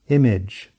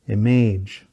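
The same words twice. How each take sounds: First: The second vowel is reduced to schwa. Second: The second vowel is a full vowel. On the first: The speaker calls it right. "the proper" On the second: The speaker calls it wrong. "incorrect pronunciation"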